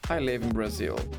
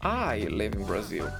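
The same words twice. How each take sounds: First: The word Brazil carries the main stress. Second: The word I carries the main stress. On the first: The place is the important information. "Enfatizando a palavra Brazil" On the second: Who lives there is the important information. "eu destaquei a palavra I"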